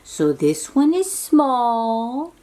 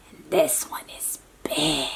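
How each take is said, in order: First: Said in the usual way. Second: Lower, softer breathy whisper on big. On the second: Shown as a demonstration. Showing a child the big dog, low whisper. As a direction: hush it to make the dog sound huge.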